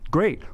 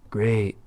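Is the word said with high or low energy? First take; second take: high; low. First: It is said loudly with high energy. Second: It is said flatly with low energy. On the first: It comes across as enthusiastic and friendly. The speaker calls it right. "like fired up" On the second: It comes across as disrespectful. The speaker calls it wrong. "Like low energy"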